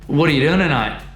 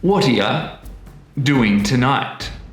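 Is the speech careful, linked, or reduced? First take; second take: reduced; linked. First: The t becomes d and the words blur together. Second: Words link together and 'you' weakens to 'ya'. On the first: "everything gets a bit messy... the t sound at the end of what actually becomes a d sound" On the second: "words are starting to come together... the weak form of you, which is y"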